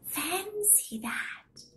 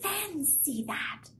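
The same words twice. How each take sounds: First: High, slow whispered wonder; whispering old lady. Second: Put-on high, soft old lady marvel; quietly wondering old woman; sweet old lady. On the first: Acted. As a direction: breathe it out like an amazed old woman.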